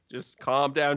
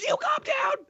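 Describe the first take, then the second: First: Said in the usual way. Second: Shrill-high furious shriek; screaming retort. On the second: Acted. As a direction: throw it back at the guard in a high scream.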